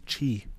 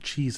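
First: The word ends on a plain vowel. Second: The word ends with a z sound. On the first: The speaker calls it right. "It's chi" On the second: The speaker calls it wrong. "You got to take off the SE, because it's not cheese"

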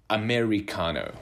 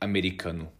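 First: It is pronounced the common English way. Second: It is pronounced the Brazilian Portuguese way. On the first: "common English pronunciation" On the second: "in Brazil, where I come from, we would say americano"

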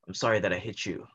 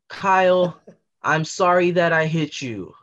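First: The apology sounds flat and insincere. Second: The apology sounds earnest and sincere.

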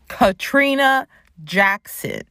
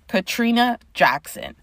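First: It is yelled loudly. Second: It is said at normal volume.

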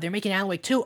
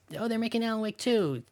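First: It is said with excited, hyped energy. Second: It is said flatly, without much enthusiasm. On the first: The news is thrilling. The speaker calls it right. "hype would that be? To be like, oh my God" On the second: The news is a letdown. The speaker calls it wrong. "As opposed to, great, 2 years"

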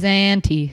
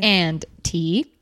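First: The words are said casually and run together. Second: Each word is clearly and carefully enunciated. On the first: "usually it's always and T" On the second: "you enunciated the crap out of it"

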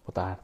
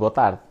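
First: It is said very softly. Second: It is said at normal loudness.

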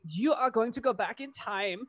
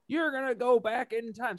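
First: It is said in a put-on German accent. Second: It is said in the speaker's ordinary accent. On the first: The speaker calls it right. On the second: The speaker calls it wrong.

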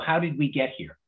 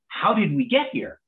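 First: It sounds dismayed and troubled. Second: It sounds delighted and amazed.

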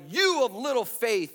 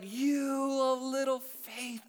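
First: It is said in a scornful, scolding tone. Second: It is said in a gentle, caring tone. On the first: The speaker is condemning the listener. The speaker calls it wrong. "Jesus is like, you of little faith, you dork... that's not how he said it" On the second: The speaker is compassionate toward the listener. The speaker calls it right. "Jesus is like, you of little faith. Oh, you were so close to getting this"

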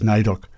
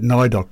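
First: The I is silent, with no separate syllable. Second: The I is sounded as a separate syllable. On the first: The speaker calls it right. "the original pronunciation has stayed as NAIDOC. So the I is silent" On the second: The speaker calls it wrong. "I must fess up that when I first looked at NAIDOC, I pronounced it NAIDOC"

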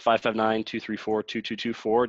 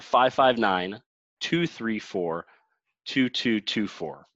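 First: The number is said at normal speed. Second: The number is said more slowly.

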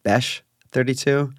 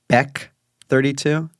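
First: The first word ends in a sh sound. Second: The first word ends in a k sound. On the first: The speaker calls it wrong. "not Besh 32" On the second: The speaker calls it right. "It's Beck 32"

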